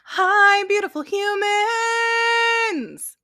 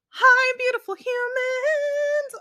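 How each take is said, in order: First: It is said in a lower voice. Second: It is said in a very high voice.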